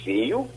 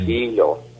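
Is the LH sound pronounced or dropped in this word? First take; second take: dropped; pronounced. First: The LH sound is replaced by a glide. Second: The LH sound is fully pronounced.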